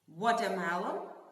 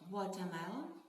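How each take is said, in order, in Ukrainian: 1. Слово сказано голосно. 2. Слово сказано тихо.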